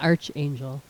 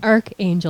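First: The first syllable sounds like 'arch'. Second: The first syllable sounds like 'ark'. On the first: The speaker calls it wrong. "not archangel" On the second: The speaker calls it right. "It's archangel"

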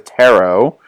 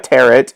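First: The word is said not rhyming with carrot. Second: The word is said to rhyme with carrot. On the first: The speaker calls it right. "it's a tarot" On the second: The speaker calls it wrong. "It's not a tarot"

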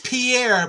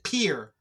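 First: The name is read as written, French style. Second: The name is said like the word pier. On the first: This is how the spelling reads. "It reads Pierre" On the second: This is how locals actually say it. "but they pronounce it Pier"

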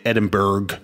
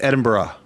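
First: The word ends with a 'burg' sound. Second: The word does not end with 'burg'. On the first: This is how North Americans say it. The speaker calls it wrong. "I think it's very American or Canadian to say Edinburgh" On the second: This is how locals say it. The speaker calls it right. "I think it's Edinburgh"

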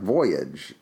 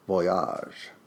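First: Voyage is pronounced the English way. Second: Voyage is pronounced the French way. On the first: The speaker calls it wrong. "It looks like" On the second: The speaker calls it right. "when you understand that it's French, then it must be Voyage"

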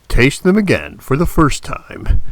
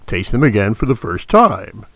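First: The stress falls on the word first. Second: The stress falls on the word time. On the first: The speaker calls it right. "could you try to emphasize the words first a little bit more?" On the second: The speaker calls it wrong. "he kept emphasizing time. Instead of first"

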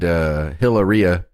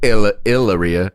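First: The name begins with an audible H sound. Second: The name begins with no H sound.

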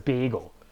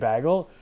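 First: The first syllable sounds like 'beg'. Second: The first syllable sounds like 'bag'. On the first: The speaker calls it wrong. "everyone else says bagel, and I hate it" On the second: The speaker calls it right. "about 25% or 20% of the population up here will say bagel"

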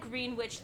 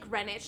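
First: The name is not said like the village. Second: The name is said like the village. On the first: The speaker calls it wrong. "we said Greenwich the whole fucking time" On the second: The speaker calls it right. "is it like Greenwich, like Greenwich Village"

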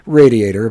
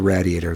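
First: Radiator is said without an East Coast pronunciation. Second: Radiator is said with an East Coast pronunciation. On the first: "How do you pronounce it? Radiator" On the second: "I've heard a lot of East Coasters say radiator"

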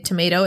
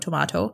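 First: It is said with an English pronunciation. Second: It is said with a Japanese-style pronunciation.

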